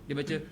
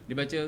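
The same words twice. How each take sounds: No difference in how they are said.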